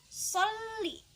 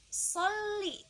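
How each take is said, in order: Both takes have the same delivery.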